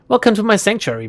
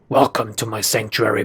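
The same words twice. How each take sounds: First: It is said in a normal voice. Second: It is said in a deep voice.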